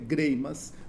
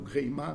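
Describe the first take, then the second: First: The name ends with an s sound. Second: The name ends without an s sound. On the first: This is the name's original pronunciation. "é Greimas, do ponto de vista da pronúncia" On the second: This is the name as it is commonly said locally. "o Greimá nosso"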